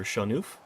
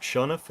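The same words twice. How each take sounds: First: Shanuf said shah-NOOF, long oo; Shanuf with long ending. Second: Shanuf said SHAH-nuff, short u; Shanuf with short ending. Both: Shown as a demonstration. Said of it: "Is that how I pronounce your name".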